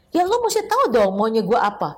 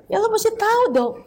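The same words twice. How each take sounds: First: Plain demand. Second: Mocking, much higher, petulant; hammed-up high-pitched demand; whiny demand. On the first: Retold or imitated. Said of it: "Kadang-kala gini". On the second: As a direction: squeak it out like a sulky spouse. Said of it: "Biasa begitu kan?".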